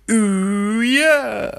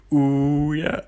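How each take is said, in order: First: Much higher, louder squealing ooh yeah; second terrible impression. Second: Lightly voiced, mock singing plant; a half-hearted go at a singing plant; terrible plant impression. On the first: Another try at the plant, a hammed-up falsetto. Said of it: "That's also a terrible impression". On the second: Pretending to be a plant, a poor mock ooh yeah. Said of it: "That's a terrible impression".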